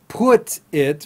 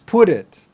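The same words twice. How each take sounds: First: The T is a separate, clear T sound. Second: The T sounds like a D linked onward.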